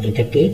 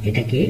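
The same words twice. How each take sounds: The two takes are said the same way.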